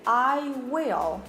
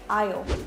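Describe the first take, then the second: First: The two words are said separately and fully. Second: The words are squeezed together into one syllable. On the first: The speaker calls it wrong. "you don't say I will" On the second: The speaker calls it right. "You say I'll"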